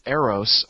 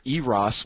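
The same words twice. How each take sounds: First: "Eros" as AIR-oss; common pronunciation. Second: "Eros" as EE-ross; correct pronunciation. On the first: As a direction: start "Eros" with an AIR sound. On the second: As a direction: start "Eros" with a long EE. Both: Shown as a demonstration. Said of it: "which is how it's supposed to be pronounced".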